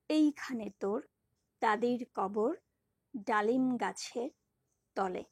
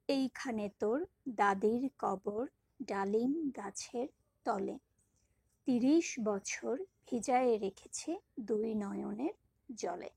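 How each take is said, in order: First: Each phrase said on one breath with a pause after it; recited in phrase units. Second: Slow, flowing recitation with only light breaks; smooth recitation. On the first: Teacher splitting a poem line into measures for students, pausing at each. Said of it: "এক নিঃশ্বাসে এক চরণের একটা পংক্তির যতটুকু একসাথে উচ্চারণ করব". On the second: Teacher reciting the whole couplet for students after the split demo. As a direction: recite the whole couplet in one steady flow. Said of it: "এই পর্বভাগ করাটা পুরোটাই সেন্সের উপর নির্ভর করে". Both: Shown as a demonstration.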